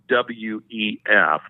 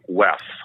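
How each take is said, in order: First: Each letter is spoken separately. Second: The letters are spoken as one word. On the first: This is how outsiders say it. "they don't say the W E F" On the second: This is how insiders say it. "They say W E F"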